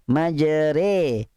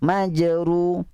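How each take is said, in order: First: The vowel after r is tilted toward i. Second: The vowel after r is a rounded u. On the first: "harakah mumalah" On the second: "Baris depan"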